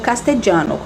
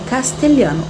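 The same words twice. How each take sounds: First: It is pronounced the Spanish way. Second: It is pronounced the Portuguese way.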